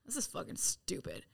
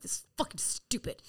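First: Whispered grumble; muttered whisper. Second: Whispered grumble again; muttered whisper. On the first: Grumbling about being sent inside, whispered. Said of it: "And I'm like". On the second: Grumbling at the sponsor's plan, whispered. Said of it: "I'm like". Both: Retold or imitated. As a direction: mutter it under your breath.

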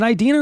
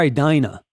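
First: [name] with "dee" in the middle; eye-DEE-na pronunciation. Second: [name] with "dye" in the middle; eye-DYE-na pronunciation. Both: Shown as a demonstration. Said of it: "Is it [name] or [name]?".

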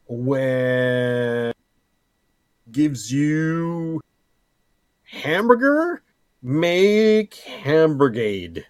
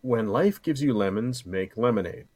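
First: High, slow, silly announcing voice; drawn-out goofy proclamation. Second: Said in the usual way. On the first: Pretend. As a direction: stretch it out like a mock proverb. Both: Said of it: "Can you make a new one for me?".

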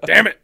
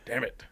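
First: Loud, high burst of frustration; exasperated outburst. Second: Said in the usual way. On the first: Real, not acted. Host caught slipping into the accent, loud exasperated outburst. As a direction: blurt it out much louder, half laughing.

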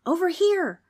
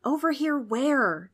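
First: High, louder call; calling back. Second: Slow, higher-pitched confused question; puzzled asking. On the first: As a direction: call out so friends can find you. Someone answers, calling in the dark. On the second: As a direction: ask it slowly, totally lost. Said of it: "Trix asked". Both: A narrator's reading.

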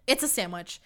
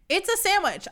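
First: Said in the usual way. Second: Much higher, disbelieving repeat; high incredulous. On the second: Real, not acted. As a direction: squeak it in disbelief.

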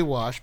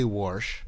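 First: Said in the usual way. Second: Warsh with an R before the SH; added R. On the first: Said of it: "I do say wash". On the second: Shown as a demonstration. Explaining an East Coast habit, warsh with added R. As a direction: say "warsh" as "worsh". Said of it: "I don't say warsh".

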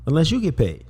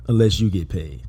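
First: "you" lifted and stressed. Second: "unless" punched and falling; stress on unless. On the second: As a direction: lean on "unless". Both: Shown as a demonstration.

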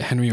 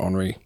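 First: Henry said the English way, HEN-ree; English pronunciation. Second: Henry said the French way, on-REE; French pronunciation. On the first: Asking his co-host about the player's name, English pronunciation of Henry. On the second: Asking his co-host about the player's name, French pronunciation of Henry. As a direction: say Henry like the French surname, silent H. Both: Shown as a demonstration.

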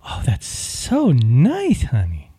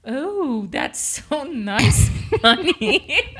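First: Sweet feminine demo. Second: Slow, lightly higher, laughing through it; half-hearted feminine try. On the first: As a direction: coo it out like a doting woman. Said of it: "answer with something really feminine". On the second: Wife practicing the girly reply, laughing at herself. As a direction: attempt the sweet line but crack up. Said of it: "It was not feminine". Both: Shown as a demonstration.

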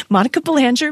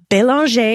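First: Belanger said the American way, puh-LAN-jer; Americanized Belanger. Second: Belanger said the French way, bay-lahn-zhay. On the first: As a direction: Belanger with a hard j and a final r. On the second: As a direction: say Belanger as a French Canadian would. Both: Shown as a demonstration. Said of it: "as I would say it".

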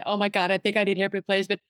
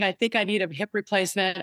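First: Panicky rush. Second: Said in the usual way. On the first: Retold or imitated. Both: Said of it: "I'm catastrophizing right in front of her".

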